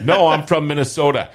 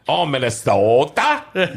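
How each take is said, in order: First: Said in the usual way. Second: Slow, drawn-out Minnesota "Oh"; exaggerated Minnesota accent. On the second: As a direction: stretch it like a Fargo caricature. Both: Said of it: "That's, that's not how we talk".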